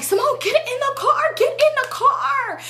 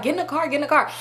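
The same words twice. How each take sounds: First: High, drawn-out hammed-up shriek; dramatic mock yell. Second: Mildly high mock urgency, not shouted; toned-down dramatic imitation. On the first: Friend urging Simone into the car, mock dramatic high yell. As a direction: imitate her overdramatic yelling, stretching the words. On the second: Friend urging her into the car, mildly mocked drama. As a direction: lightly mimic a fussing friend. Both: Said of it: "it was really how dramatic she was being".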